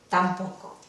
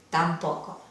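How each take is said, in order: No difference in how they are said.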